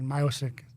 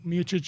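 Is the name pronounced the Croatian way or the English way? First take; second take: English; Croatian. First: The name is pronounced the English way. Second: The name is pronounced the Croatian way. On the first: "You know, like English" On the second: "is in Croatian"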